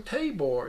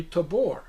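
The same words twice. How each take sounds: First: Tabor with stress on the first syllable; mistaken name pronunciation. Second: Tabor with stress on the second syllable; corrected name pronunciation. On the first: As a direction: say Tabor as TAY-bor. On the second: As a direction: say Tabor as tuh-BOR. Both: Retold or imitated. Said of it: "It's actually Tabor".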